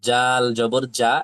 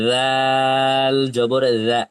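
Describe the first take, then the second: First: The consonant is a hard j sound. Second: The consonant is a soft dh sound. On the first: It turns into a different letter. The speaker calls it wrong. "আবার কেউ এভাবে বলেন না যে" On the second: It is the intended letter. The speaker calls it right. "আর যদি পাতলা করেন তাহলে হয়ে যাবে রাল"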